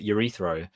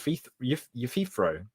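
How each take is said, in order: First: The name begins with a 'yur' sound, like urethra. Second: The name begins with 'yoo' and has no r. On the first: The speaker calls it wrong. "I've always pronounced it urethro" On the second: The speaker calls it right. "so it's"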